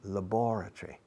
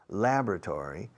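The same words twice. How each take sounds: First: It is said in a British accent. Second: It is said in an American accent. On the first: "In British English" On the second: "American English"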